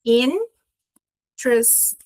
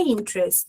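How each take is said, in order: First: "interest" very slow, broken into in... trest; teacher spelling out "interest" in two slow beats; syllable by syllable. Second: Said in the usual way. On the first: Shown as a demonstration. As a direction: split "interest" into two drawn-out parts with a long gap. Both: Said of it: "a base da pronúncia aqui".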